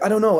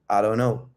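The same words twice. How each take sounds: First: It is said defensively and anxiously. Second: It is said calmly, without defensiveness. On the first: The speaker feels accused and tries to protect himself. The speaker calls it wrong. "Most men would be like" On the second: The speaker feels secure and is not blaming himself. The speaker calls it right. "I'm calm, I'm grounded. ... the non-defensiveness in my voice"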